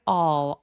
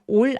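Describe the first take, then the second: First: The vowel is long with the jaw wide open. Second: The vowel is short with the jaw barely open. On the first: The speaker calls it right. "턱 길게 all, all 이라고 벌려서 발음해 주시고요" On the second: The speaker calls it wrong. "all 아니고요"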